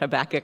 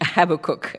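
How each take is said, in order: First: It is said the speaker's own way. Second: It is said the way people say it in England.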